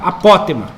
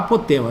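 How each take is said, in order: First: The stress is on the second syllable. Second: The stress is on the third syllable. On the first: The speaker calls it right. "Eu acho que o correto é falar apótema" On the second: The speaker calls it wrong. "eu esqueço de falar apótema"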